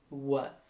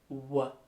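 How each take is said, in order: Both takes have the same delivery.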